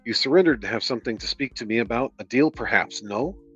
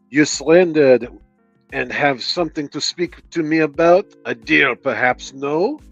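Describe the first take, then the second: First: It is read in the speaker's plain voice. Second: It is read with a put-on French accent.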